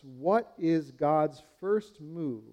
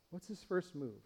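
First: Slow, deliberate rhetorical question; slow emphatic question. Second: Softer hushed repeat of What's his first move. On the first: Preacher asks the congregation, slow and emphatic. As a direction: drag out what is God's first move. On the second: Preacher repeats the question to the congregation, softer. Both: Shown as a demonstration.

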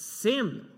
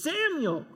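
First: Emphatic higher call; a firm emphatic call; exclaimed name. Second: High, loud, exclaimed name; exclaimed call. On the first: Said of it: "with an exclamation point". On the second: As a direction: call out like a hand clap and a foot stomp. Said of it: "with an exclamation point and a hand clap". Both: Shown as a demonstration.

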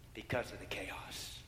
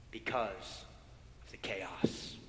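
First: Softer and slower, lingering on each word; slow, soft repeat. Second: Hushed whisper. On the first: Preacher repeats the chaos softly for the congregation. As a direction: let the phrase settle slowly and softly. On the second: Preacher whispers of the chaos to the congregation. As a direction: drop to a low whisper on the chaos. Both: Acted.

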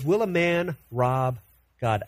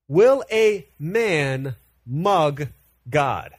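First: Said in the usual way. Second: "Will a man mug God?" drawn out very slowly and louder, "mug" held long; slow punchline. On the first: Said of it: "what it's saying is". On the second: Shown as a demonstration. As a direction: stretch every word for a comic payoff. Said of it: "Literally, here, what it's saying is".

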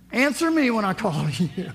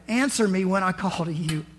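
First: "me" pushed up and louder, a demanding rising prayer; demanding stress on me. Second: Said in the usual way. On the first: Shown as a demonstration. Showing the church how David opens his prayer, demanding with stress on "me". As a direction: insist on "Answer me", with a rise on "me". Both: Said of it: "How you like starting your prayer like that?".

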